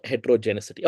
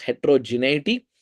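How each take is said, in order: First: Heterogeneity wrongly as "hetero-genicity"; wrong pronunciation. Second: Heterogeneity as "hetero-je-NEE-ity", with no C; correct pronunciation. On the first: Lecturer shows what not to say, pronouncing heterogeneity as "hetero-genicity". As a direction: put a false C into heterogeneity, "-icity". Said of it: "There is not". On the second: Lecturer corrects the common error, saying heterogeneity as "hetero-je-NEE-ity". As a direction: say heterogeneity ending "-neity", no S sound. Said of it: "we need to pronounce it also correctly". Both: Shown as a demonstration.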